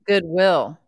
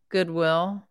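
First: The stress falls on will. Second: Both parts get equal stress.

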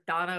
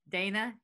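First: The name is said the British way. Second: The name is said the American way. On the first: This is how it is said in Britain. "is Donna over there" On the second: This is how it is said in America. "Dana over here"

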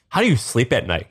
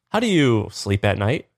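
First: The question sounds harsh and accusing. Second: The question sounds mild and friendly. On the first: The speaker is condemning the listener. "instead of saying" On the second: The speaker is asking an innocent question. "he can't sound mean. He just says"

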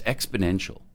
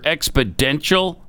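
First: The middle sounds like 'nential', with an n. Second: The middle sounds like 'dential', as in dentist. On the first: The speaker calls it right. "Joe, it's exponential, okay?" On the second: The speaker calls it wrong. "Is it a dentist that works at an expo?"

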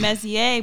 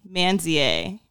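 First: The name is said without an N sound. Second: The name is said with an N sound. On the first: This is how the name's owner says it. "he was saying" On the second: This is how a listener heard it. "I was hearing like, ... there's an N in it"

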